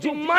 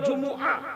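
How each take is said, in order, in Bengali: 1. m দ্বিত্ব হয়ে একটি লম্বা ধ্বনিতে পরিণত হয়। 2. একটি একক m, এর পরে আলাদা স্বরধ্বনি। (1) "শব্দটি জুম্মা নয়" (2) "শব্দটি হলো জুমুআ"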